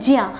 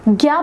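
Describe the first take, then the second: First: The syllable begins with a j sound. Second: The syllable begins with a g sound. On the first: The speaker calls it right. "इसका जो सही pronunciation होता है वह होता है ज्या" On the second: The speaker calls it wrong. "लेकिन हम इसे ज्ञा बोलते हैं"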